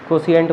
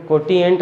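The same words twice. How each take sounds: First: कोशिएंट said with a soft sibilant, ko-si-ent; corrected pronunciation. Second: कोटिएंट said with a hard "ti", ko-ti-ent; wrong pronunciation. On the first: Teacher corrects students' word, कोशिएंट with "si". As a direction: replace the t with an s-like sound in कोशिएंट. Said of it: "कोशिएंट बोलते हैं". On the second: Teacher shows class the mistake, कोटिएंट with "ti". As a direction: put a t sound in कोटिएंट. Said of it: "इसको कोटिएंट नहीं बोलते". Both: Shown as a demonstration.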